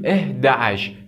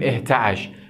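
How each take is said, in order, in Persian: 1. آخر کلمه صدای t اضافه ندارد. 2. آخر کلمه صدای t دارد، 'tash'. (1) "میگیم" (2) "نمیگیم"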